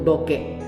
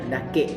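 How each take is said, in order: First: The first vowel is an 'o' sound. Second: The first vowel is an open 'a' sound. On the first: This is the speaker's home-town form. "bahasa Batu Sangkar yang di daerah saya itu doke" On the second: This is the common regional form. "bahasa Minang pada umumnya dake"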